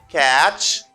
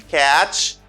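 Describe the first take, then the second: Both takes have the same delivery.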